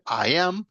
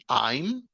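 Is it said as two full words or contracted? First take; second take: full; contracted. First: Two separate full words are pronounced. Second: The words are contracted into one syllable. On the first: "En vez de decir I am" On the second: "simplemente dicen I'm"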